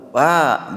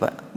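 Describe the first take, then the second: First: The word is called out long and drawn out. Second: The word is said short and clipped. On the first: The person being called is far away. "Panggilan yang panjang jauh" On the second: The person being called is close by. "Kalau yang dekat mah pendek-pendek aja"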